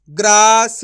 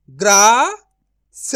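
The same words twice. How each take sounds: First: ग्रास joined as "graas", loud; blended whole word. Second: ग्रास broken as "graa... sa", long pause, loud; syllable by syllable. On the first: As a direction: read ग्रास in one go without a break. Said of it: "तो मिलके बन जाएगा". (ग्रास को जोड़कर ज़ोर से बोलें) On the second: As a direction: sound out ग्रास very slowly in two parts. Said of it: "direct मात्रा का उच्चारण करके पढ़ेंगे". (ग्रास को "ग्रा... स" तोड़कर धीरे बोलें) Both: Shown as a demonstration.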